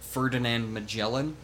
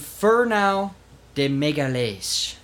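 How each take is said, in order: First: The name is pronounced the English way. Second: The name is pronounced the Portuguese way. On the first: "the anglicized" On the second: "which is Portuguese"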